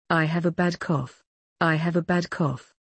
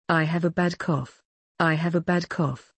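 The two takes are said the same way.

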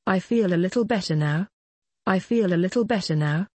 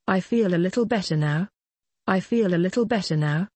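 The two takes are said the same way.

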